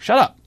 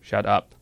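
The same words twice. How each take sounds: First: It is said with lively, expressive intonation. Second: It is said flat, like a robot. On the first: "It doesn't do intonation. You can't say" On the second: "It'll just say, ... it's like kind of robotic"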